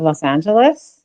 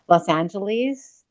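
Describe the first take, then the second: First: It is pronounced the way Americans say it. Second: It is pronounced the way non-Americans say it. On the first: "instead of Los Angeles" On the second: "most of my non American friends uh, will say Los Angeles"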